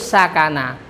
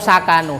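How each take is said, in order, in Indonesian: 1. Kata itu diakhiri dengan vokal a. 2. Kata itu diakhiri dengan vokal u. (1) "harus sakana" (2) "Atau sakanu"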